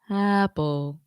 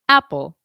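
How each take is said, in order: First: The vowel starts smoothly with no catch or breath. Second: The vowel starts with a light, clean throat catch. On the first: The speaker calls it wrong. "That would be a, a balanced onset, and that's typically not how we talk" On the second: The speaker calls it right.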